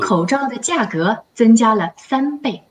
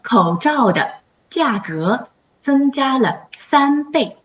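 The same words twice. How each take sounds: First: The sentence is said fast. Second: The sentence is said slowly.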